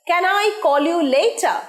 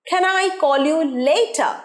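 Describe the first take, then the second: The two takes are said the same way.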